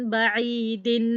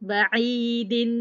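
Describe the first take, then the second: Both takes have the same delivery.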